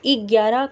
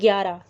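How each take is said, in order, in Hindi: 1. शब्द एक छोटे 'i' स्वर से शुरू होता है। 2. शब्द सीधे व्यंजन गुच्छ से शुरू होता है। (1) "वो लोग ग्यारह करके रूप में उच्चारित करते हैं" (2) "जैसे हम बोलते हैं ग्यारह"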